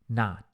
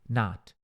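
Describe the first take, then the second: No difference in how they are said.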